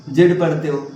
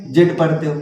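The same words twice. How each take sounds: The two takes are said the same way.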